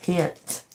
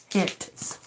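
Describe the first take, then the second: First: Said in the usual way. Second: Hence whispered through a laugh; amused whisper. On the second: Real, not acted. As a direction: breathe Hence out, half laughing. Repeating a word, laughing.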